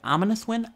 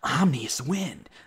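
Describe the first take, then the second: First: The first word is pronounced 'ominous'. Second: The first word is pronounced 'omnious'. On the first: The speaker calls it right. "that that was ominous win" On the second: The speaker calls it wrong. "you're pronouncing it wrong"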